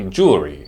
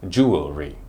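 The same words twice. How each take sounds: First: It is shortened to two syllables. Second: It has three syllables, jew-el-ry. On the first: "a colloquial way to say the word" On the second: "It has three syllables"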